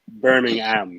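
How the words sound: The h is sounded and the last syllable stressed. This is the American way of saying it. The speaker calls it wrong. "we butcher it with the emphasis on the H on the ham"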